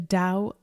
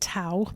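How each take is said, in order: First: The word begins with a D sound. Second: The word begins with a T sound. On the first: The speaker calls it right. "it's actually pronounced with a D sound" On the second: The speaker calls it wrong. "Many people mispronounce it"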